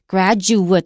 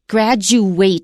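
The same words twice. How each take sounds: First: The last syllable is pronounced like 'it'. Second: The last syllable is pronounced like 'ate'. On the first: It is used as a noun. "是毕业生" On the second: It is used as a verb. "毕业"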